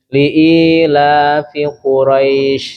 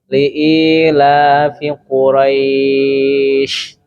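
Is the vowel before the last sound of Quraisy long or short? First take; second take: short; long. First: The vowel in Quraisy is held briefly. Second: The vowel in Quraisy is held much longer. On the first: "Pakainya dua boleh" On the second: "Yang enam juga boleh"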